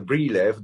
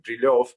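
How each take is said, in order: First: The surname is said the way English speakers say it. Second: The surname is said with its Russian pronunciation. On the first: This is how people outside Russia know the name. "everyone knows me as" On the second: This is the original Russian pronunciation. "in Russian it is, of course, pronounced like"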